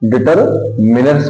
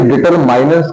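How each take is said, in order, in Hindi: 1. बीच का अक्षर 'min' जैसा बोला जाता है। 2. बीच का अक्षर 'mine' जैसा बोला जाता है। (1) "हमेशा क्या पढ़ते हैं अपन? डिटरमिनर्स पढ़ते हैं" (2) "इसे डिटरमाइनर्स कभी नहीं पढ़ा जाता है"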